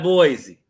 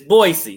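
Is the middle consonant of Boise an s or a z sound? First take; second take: z; s. First: The middle consonant is a buzzing z sound. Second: The middle consonant is a hissing s sound. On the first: The speaker calls it wrong. "It's not Boise" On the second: The speaker calls it right. "It's Boise. It's like B-O-Y-C"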